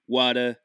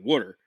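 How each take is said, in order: First: It is said New York style, dropping the R. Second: It is said with a General American R.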